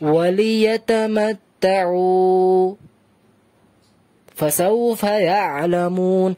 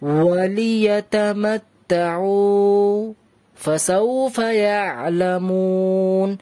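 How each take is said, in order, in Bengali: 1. এক সেকেন্ডের অনেক বেশি থামা। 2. এক সেকেন্ডের সংক্ষিপ্ত থামা, নিঃশ্বাস না নিয়ে। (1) "যদি কেউ বেশি থেমে যায় তাহলে বলে এইভাবে" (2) "ওখানে আমি থামলাম এক সেকেন্ডের জন্য, বেশি থামিনি আর নিঃশ্বাস ছাড়িনি।"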